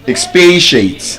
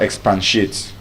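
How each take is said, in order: First: It is said without any N sound. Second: It is said with an added N sound. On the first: The speaker calls it right. "Expatiate, exactly" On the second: The speaker calls it wrong. "there is no N in that word. It's not expatiate"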